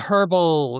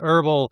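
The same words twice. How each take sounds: First: It is said the Australian way. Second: It is said the American way.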